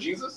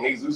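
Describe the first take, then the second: First: The name is said with English pronunciation. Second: The name is said with Spanish pronunciation. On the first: "instead of"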